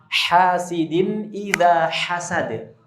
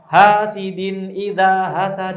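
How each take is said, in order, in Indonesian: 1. Bunyi h-nya berdesah, keluar dari tengah tenggorokan. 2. Bunyi h-nya ringan, hanya hembusan napas biasa. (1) "Tenggorokan bagian tengah... Yang keluar udara dulu baru suara"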